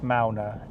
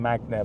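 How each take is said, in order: First: The name is said without a g sound. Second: The name is said with a g sound. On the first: The speaker calls it right. "it's Mauna" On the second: The speaker calls it wrong. "I sometimes call him Magna"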